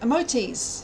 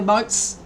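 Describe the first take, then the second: First: The final e is pronounced as a vowel. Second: The final e is silent. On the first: The speaker calls it wrong. "Like really pronouncing the E on the end" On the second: The speaker calls it right. "you don't apparently say it like that"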